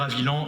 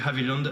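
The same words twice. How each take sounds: First: The final D sound is left silent. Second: The final D sound is clearly pronounced. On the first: This is the usual French way of saying the name. "J'ai entendu le président à juste titre dire Haviland et c'est parfaitement correct" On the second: This is how the English-speaking founders likely said it. "avec le D à la fin"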